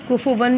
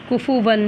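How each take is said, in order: Both takes have the same delivery.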